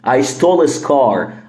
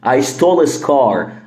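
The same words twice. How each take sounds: First: Said quickly with the h in 'his' dropped. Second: Said quickly with the h in 'his' dropped.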